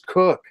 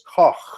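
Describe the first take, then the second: First: The name ends in a plain k sound. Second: The name ends in a raspy throaty sound. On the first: "it's Cook" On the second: "get a little spit in there"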